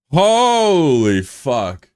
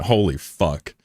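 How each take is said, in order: First: Slow, drawn-out, higher and louder; stunned holy fuck. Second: Said in the usual way. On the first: Real, not acted. Streamer stunned after a viewer reveals being sixteen, slow drawn-out disbelief. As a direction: stretch it out in disbelief.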